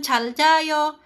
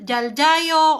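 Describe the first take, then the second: First: The word begins with a voiceless ch sound. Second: The word begins with a voiced j sound. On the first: "pwede siyang C H" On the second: "Pwede siyang J"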